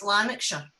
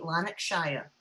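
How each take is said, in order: First: The ending is pronounced like 'sure'. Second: The ending is pronounced like 'shire'. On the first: This is how locals say it. The speaker calls it right. "So it's Lanarkshire" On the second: The speaker sounds posh. The speaker calls it wrong. "you sound like you've got plums in your mouth"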